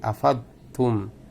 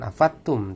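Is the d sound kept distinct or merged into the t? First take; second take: distinct; merged. First: The d sound is kept distinct before t. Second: The d sound is merged into the t. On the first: The speaker calls it right. "tapi afadtum" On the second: The speaker calls it wrong. "jangan afadtum"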